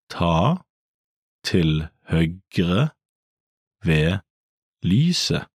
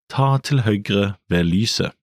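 First: The sentence is spoken slowly and carefully. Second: The sentence is spoken at a normal, fluent pace. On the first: "Let's break it down" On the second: "Again at natural speed"

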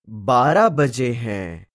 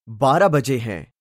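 First: It is said slowly. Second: It is said at normal speed.

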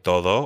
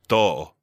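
First: The middle consonant is softly but clearly heard. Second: The middle consonant is nearly or fully dropped. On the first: "So you can say todo" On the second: "or you hear people say todo"

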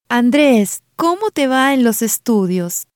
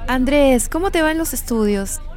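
First: It is said slowly and deliberately. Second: It is said at normal conversational speed.

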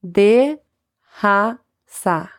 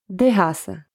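First: It is said slowly, broken into parts. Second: It is said quickly at normal speed.

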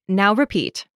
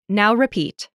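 Both takes have the same delivery.

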